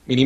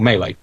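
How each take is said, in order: First: "Mini" said as MEE-lee; "Mini" pronounced MEE-lee, rhyming with freely; alternative pronunciation. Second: "Melee" said as MAY-lay; "Melee" pronounced MAY-lay; alternative pronunciation. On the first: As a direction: say "Mini" as Melee with an ee in both syllables. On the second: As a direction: say "Melee" with an ay in both syllables. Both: Shown as a demonstration. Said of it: "don't know how to pronounce it".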